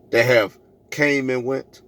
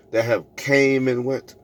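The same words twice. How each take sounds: The two takes are said the same way.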